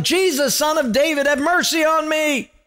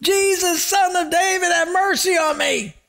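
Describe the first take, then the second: First: Yelling for mercy. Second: Much higher desperate shout; yelling all the more. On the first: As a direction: cry out to Jesus, pleading. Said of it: "he starts yelling". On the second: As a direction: shout it even harder, desperate. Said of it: "he yelled out all the more". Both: Retold or imitated.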